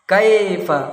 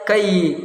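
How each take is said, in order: First: The vowel is an ai diphthong. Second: The vowel is a plain e sound. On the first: The speaker calls it right. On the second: The speaker calls it wrong.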